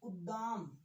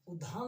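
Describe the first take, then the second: First: The second d sound is plain, without breath. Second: The second d sound is aspirated, with breath. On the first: The speaker calls it right. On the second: The speaker calls it wrong.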